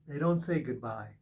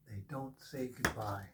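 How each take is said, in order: First: Said in the usual way. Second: Soft echo. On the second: Acted. Reader softly echoing the angels' saying to the viewer. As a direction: repeat it much softer, lower. Repeats the line, softer echo.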